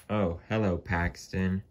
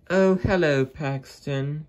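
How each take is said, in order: First: Said in the usual way. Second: Much higher, louder carriage voice; shrill-high hammed-up lady coach; Annie's voice. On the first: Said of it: "said Edward". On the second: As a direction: squeak the greeting up high as Annie. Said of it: "said Annie".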